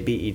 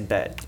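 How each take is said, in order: First: It is said as three separate letters. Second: It is said as one single word. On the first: It names the television network. The speaker calls it right. "when you're referring to BET, you say BET" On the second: It sounds like gambling. The speaker calls it wrong. "You don't say bet"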